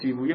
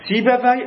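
First: The name is pronounced the Persian way. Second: The name is pronounced the Arabic way. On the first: "سیبویه فارسیه" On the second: "سیبوی عربیه"

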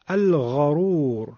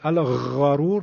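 First: The gh sound is soft and drawn out. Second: The gh sound is pressed hard, close to kh. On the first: The speaker calls it right. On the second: The speaker calls it wrong.

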